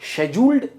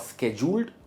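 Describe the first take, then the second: First: It begins with an 'sh' sound, British style. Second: It begins with a 'sk' sound, American style. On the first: "UK pronunciation" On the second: "US pronunciation"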